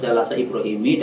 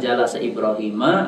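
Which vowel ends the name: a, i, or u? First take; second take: i; a. First: The name ends with an i vowel. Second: The name ends with an a vowel.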